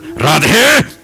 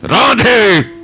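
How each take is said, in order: First: It is said harshly and angrily. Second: It is said harshly and angrily.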